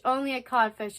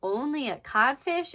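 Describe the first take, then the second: First: "Only a codfish" as a statement; matter-of-fact "only a codfish"; stated line. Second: "Only a codfish" as a question; incredulous, rising "only a codfish"; questioning line. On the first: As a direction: say "only a codfish" evenly, falling at the end. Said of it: "when they're like". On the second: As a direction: lift "codfish" in rising disbelief. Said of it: "And, like". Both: Acted.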